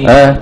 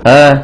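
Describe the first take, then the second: No difference in how they are said.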